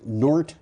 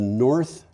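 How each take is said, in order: First: The word ends with a t sound. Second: The word ends with a th sound. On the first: The speaker calls it right. "it's Nort H two project" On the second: The speaker calls it wrong. "I shouldn't say North"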